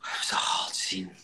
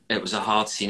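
First: Breathy, hushed, almost voiceless; whispered. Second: Said in the usual way. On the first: Real, not acted. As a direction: say it under your breath, half to yourself. Whispered then repeated aloud.

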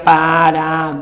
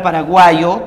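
First: "paraguayo" split slowly into separate syllables. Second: Said in the usual way. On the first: Shown as a demonstration. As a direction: draw out "paraguayo" with gaps between the syllables. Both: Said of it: "tú sabes, separando sería paraguayo".

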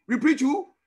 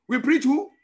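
First: Rousing call again. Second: Rousing call. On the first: Call to congregation repeated. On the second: Call to congregation. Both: Real, not acted.

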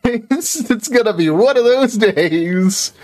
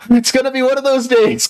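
First: High and drawn out; slow dramatic lament. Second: High, theatrical sigh of doom; dramatic lament. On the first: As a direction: stretch it like a tragic hero. Repeats lament slower. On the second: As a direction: ham up the bad day. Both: Pretend.

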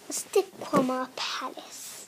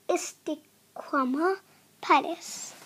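First: Whispered repeat. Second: Said in the usual way. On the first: Shown as a demonstration. Narrator echoing the palace name in a whisper. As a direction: breathe the name back in a hush.

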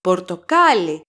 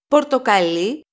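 First: Πορτοκάλι stressed on κά, the second syllable from the end; stress on second-last syllable. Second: Πορτοκαλί stressed on the final syllable, λί; stress on last syllable. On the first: Teacher names the fruit, πορτοκάλι stressed on κά. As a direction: punch κά in πορτοκάλι, letting λι drop. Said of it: "The accent is on the second syllable from the last". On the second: Teacher names the color, πορτοκαλί stressed on final λί. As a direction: hold off the stress until λί in πορτοκαλί. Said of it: "The stress is on the last syllable". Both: Shown as a demonstration.

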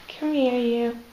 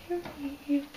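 First: Said in the usual way. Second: Soft, high call to a pet; coaxing pet voice. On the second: Real, not acted. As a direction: coax the bird over gently, up high. Calling the bird over.

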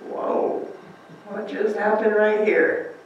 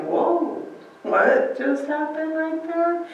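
First: Breathless whoa, slow and soft; stunned and hushed, slowly taking it in; a soft, slow mock gasp of wonder; awed disciple. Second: High, slow, amazed whoa; a higher, stretched-out cry of amazement; astonished disciple. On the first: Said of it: "it would be like". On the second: Retold or imitated. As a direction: pitch the wonder high and draw it out. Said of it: "they're probably like".

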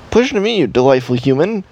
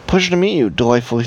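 First: High, odd alien voice. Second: Said in the usual way. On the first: Shown as a demonstration. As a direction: speak like an alien visitor. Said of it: "and that's my alien voice". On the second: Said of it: "when she said human like that".

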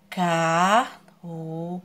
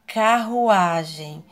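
First: Carruagem split as car... ru... a... gem; drawn-out separate beats on carruagem; carruagem, pausing after every syllable. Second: Said in the usual way. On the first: Shown as a demonstration. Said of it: "separe as suas sílabas". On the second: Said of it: "a próxima imagem".

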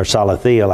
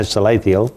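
First: Salathiel said sah-luh-THEE-el; un-Texas pronunciation. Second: Salathiel said suh-LAY-thee-el; first pronunciation. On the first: Host correcting his own reading, Salathiel as sah-luh-THEE-el. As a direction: open AH first in Salathiel, then THEE-el. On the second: Host trying a biblical name, Salathiel as suh-LAY-thee-el. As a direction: stress the LAY in Salathiel, with a long A. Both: Shown as a demonstration. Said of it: "un-Texas pronunciation of it".

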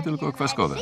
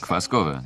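First: "kwaskowe" said higher, as a firm correction; corrective stress on kwaskowe. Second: Said in the usual way. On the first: Acted. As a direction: insist on "kwaskowe", not sour. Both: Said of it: "nie kwaśne, tylko kwaskowe".

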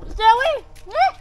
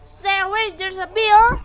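First: High, loud urgent shout; sharp shouted warning. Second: Higher, louder urgent warning; alarmed warning. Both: Real, not acted. Warning child about a bee.

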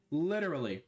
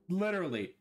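The two takes are said the same way.

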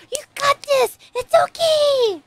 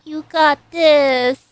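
First: High cheer. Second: Slow and louder, leaning on got; steady him with a firm push; firm, slow encouragement. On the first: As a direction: cheer him on, bright and high-pitched. Cheering on the character. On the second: Firm encouragement after pep talk. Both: Real, not acted.

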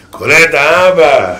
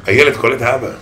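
First: "האבא" stretched slow with a falling end; slow emphatic repeat; slow drawn-out emphasis. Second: Said in the usual way. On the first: Shown as a demonstration. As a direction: lean on "האבא" slowly.

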